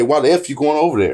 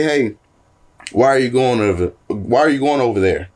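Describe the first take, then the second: First: A touch of aggression on "F"; mock angry why the F; cussing version. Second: Said in the usual way. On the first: Shown as a demonstration. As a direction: hit "F" with mild heat. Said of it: "It's a whole different meaning". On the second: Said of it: "it's a whole different meaning".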